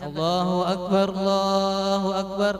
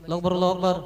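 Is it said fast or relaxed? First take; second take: relaxed; fast. First: It is said at a relaxed pace. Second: It is rushed, with no breaks.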